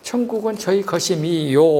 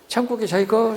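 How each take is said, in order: First: The final syllable is clearly and audibly pronounced. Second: The final syllables are dropped and swallowed. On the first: The speaker calls it right. "오를 꼭 들리게 발음을 해야 돼" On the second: The speaker calls it wrong. "매 문장 마지막 다를 발음을 안 해"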